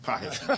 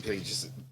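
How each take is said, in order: First: The name is said with a Spanish pronunciation. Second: The name is said with an American English pronunciation. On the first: The speaker calls it right. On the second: The speaker calls it wrong.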